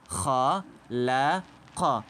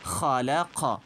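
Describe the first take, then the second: First: Halaka stretched out very slowly, each syllable held; slow Qur'an-style model reading of Halaka; slow drawn-out reading. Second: Said in the usual way. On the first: Shown as a demonstration. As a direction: draw out every sound of Halaka like a reciting teacher. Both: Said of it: "Nasıl okuyacağız?".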